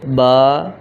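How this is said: The letter is named the Arabic way.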